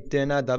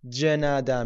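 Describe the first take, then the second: First: The word starts with a plain d sound. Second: The word starts with a j sound. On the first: "ممکنه یک جایی دنده بخونن" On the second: "توی لهجه سائوپائولویی، شهر سائوپائولو، جنده میگن، ج میخونن"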